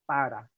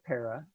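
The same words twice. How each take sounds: First: The r is a quick tap and the p is unaspirated. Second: The r is English-like and the p has a puff. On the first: The speaker calls it right. "So you want to say para" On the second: The speaker calls it wrong. "don't say para for P A R A"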